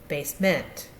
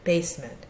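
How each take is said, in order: First: The stress is on the second syllable. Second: The stress is on the first syllable. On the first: The speaker calls it wrong. "We don't say" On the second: The speaker calls it right. "the base syllable has a little more of an emphasis"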